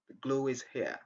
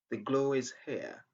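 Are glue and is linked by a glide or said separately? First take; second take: linked; linked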